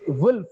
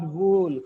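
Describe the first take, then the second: First: The vowel is short. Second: The vowel is drawn out long. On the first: The speaker calls it right. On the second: The speaker calls it wrong.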